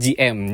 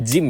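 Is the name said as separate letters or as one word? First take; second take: separate letters; one word. First: It is spelled out as two letters. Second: It is said as the single word Jim. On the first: "paling basic itu G M" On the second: "G M sebenarnya kan bacanya Jim ya"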